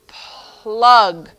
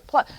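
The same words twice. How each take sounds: First: Teacher modelling the word plug; drawn-out demo word. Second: Said in the usual way. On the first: Shown as a demonstration. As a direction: plug stretched out slowly to show the cluster. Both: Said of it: "consonant clusters".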